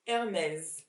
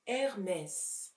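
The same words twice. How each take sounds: First: The word ends with a z sound. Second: The word ends with an s sound. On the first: The speaker calls it wrong. "with a z sound at the end" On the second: The speaker calls it right. "it is a s sound"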